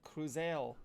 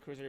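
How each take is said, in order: First: The name is said in a French accent. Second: The name is said in a plain English accent. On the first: The speaker calls it wrong. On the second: The speaker calls it right.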